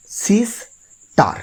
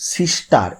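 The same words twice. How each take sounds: First: sister broken in two, long pause between সিস and টার; high, drawn-out sister split into two separate beats; split in two syllables. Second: Said in the usual way. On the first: Shown as a demonstration. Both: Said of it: "দুটো ভাগ করে উচ্চারণ হচ্ছে".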